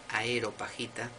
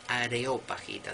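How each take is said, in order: First: The word begins with the sounds 'aero'. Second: The word begins with the sounds 'areo'. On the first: The speaker calls it wrong. "no es Aeropagita, que a mí me ha pasado mil veces de pronunciarlo así, por pronunciarlo rápido" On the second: The speaker calls it right. "es Areópagita, del areópago"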